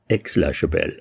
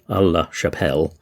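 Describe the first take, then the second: First: The first part is said the French way. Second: The first part is said in an anglicised way. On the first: The speaker calls it right. "it's actually Aix-la-Chapelle, because it's A I X" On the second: The speaker calls it wrong. "I kept getting the name wrong. I kept calling it"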